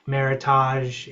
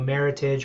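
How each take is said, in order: First: The ending is said with a French-like sound. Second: The ending is said like an English word. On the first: The speaker calls it wrong. "often mispronounced" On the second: The speaker calls it right. "English word"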